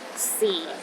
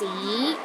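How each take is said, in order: First: The pitch is at its lowest. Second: The pitch rises from low to high. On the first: It means time. "The fourth tone is the lowest tone" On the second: It means history. "start with a low pitch and rises to a high pitch"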